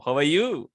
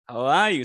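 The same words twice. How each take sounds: First: "How are you" with weight moved onto "you"; sentence stress. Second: "How are you" with "are" punched loud, then falling; sentence stress. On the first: Teacher offers another tone, stress on "you". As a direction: hold back "are" and hit "you". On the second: Teacher contrasts two tones, stress on "are". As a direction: hit "are" hard, drop on "you". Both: Shown as a demonstration. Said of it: "the stressing".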